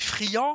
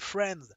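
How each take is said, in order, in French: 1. Le mot a une prononciation française. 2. Le mot a une prononciation anglaise. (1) "vous prononcez friand" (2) "au lieu de prononcer friends"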